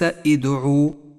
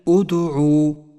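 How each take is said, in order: First: The word begins with an i vowel. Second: The word begins with a u vowel. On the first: The speaker calls it wrong. "وليس إدعو" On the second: The speaker calls it right. "بل أدعو"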